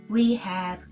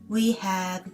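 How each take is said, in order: Both takes have the same delivery.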